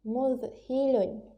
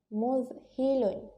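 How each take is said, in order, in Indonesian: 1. Dibaca lancar sebagai satu kata yang tersambung. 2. Dibaca lancar sebagai satu kata yang tersambung.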